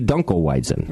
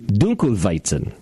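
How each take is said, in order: First: It is pronounced with English sounds. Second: It is pronounced with German sounds. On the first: "So in English, it would be" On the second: "In German, it would be"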